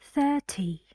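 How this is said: The middle consonant is a clear t sound. "British English here is different. We say t"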